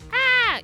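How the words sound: The scream sounds shrill and cowardly. He is screaming out of fear. The speaker calls it wrong. "screaming like a bitch"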